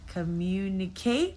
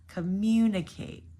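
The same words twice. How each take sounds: First: The stress is on the last syllable. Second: The stress is on the second syllable. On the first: The speaker calls it wrong. "Or the last syllable" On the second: The speaker calls it right. "Our stress here is the second syllable"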